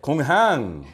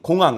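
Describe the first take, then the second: First: It is said with a Chinese-like pronunciation. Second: It is said with plain Korean pronunciation. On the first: "발음을 중국말 비슷하게" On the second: "한국말 공항"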